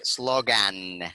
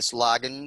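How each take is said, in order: First: The final syllable has a full, clear vowel. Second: The final syllable has a weak schwa vowel. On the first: The speaker calls it wrong. "it's not right if we read this word like" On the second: The speaker calls it right. "since it's a sure sound"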